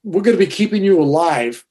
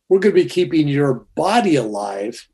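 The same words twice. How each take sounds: First: Said in the usual way. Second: "body" picked out and drawn into "alive"; stress on BODY. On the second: Retold or imitated. Surgeon correcting himself to the patient, stress on "body". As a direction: correct yourself by leaning on "body". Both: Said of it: "No, he says".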